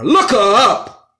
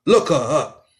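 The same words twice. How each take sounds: First: "Look her up" slow and loud, LOOK hit hard; emphatic command. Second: Said in the usual way. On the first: Real, not acted. Host urging listeners to look her up, slow and loud. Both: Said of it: "Sister Mary Turner".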